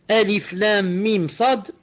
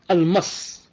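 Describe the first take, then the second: First: Each letter is named separately. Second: The letters are run together as one word. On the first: The speaker calls it right. "Au lieu de dire" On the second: The speaker calls it wrong. "il a lu ça comme un mot"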